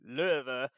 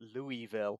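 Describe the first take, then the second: First: The name is slurred together into fewer syllables. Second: Every syllable of the name is said clearly. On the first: This is the local way to say it. The speaker calls it right. "you meant to say it like Löwe ... It's meant to be sort of slurred" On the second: This is how an outsider would say it. The speaker calls it wrong. "so British ... super, super clear and clean"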